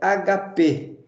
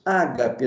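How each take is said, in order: First: The stress is on the last syllable. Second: The stress is on the first syllable. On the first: This is the original Greek pronunciation. The speaker calls it right. "No grego, ágape não é ágape, é agapê" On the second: This is the adapted form used in Portuguese. The speaker calls it wrong. "nós pronunciamos ágape"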